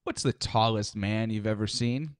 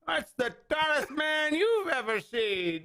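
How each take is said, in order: First: Lightly voiced drawling old-timer; old man in rocking chair. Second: Put-on slow, higher old-timer drawl; old man voice. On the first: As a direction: ask it like a porch storyteller. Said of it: "You sound like an old man in a rocking chair". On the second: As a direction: play the old porch codger, slowly. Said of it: "Let me ask you this, Sonny".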